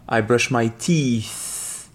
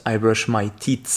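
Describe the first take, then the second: First: I brush my teeth, slowly, long ee in teeth; slow careful teeth. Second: I brush my teeth with a short i in teeth; short-vowel teeth. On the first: Teacher modelling the right teeth slowly. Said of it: "faites bien attention". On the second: Teacher showing the wrong teeth. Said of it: "and not". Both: Shown as a demonstration.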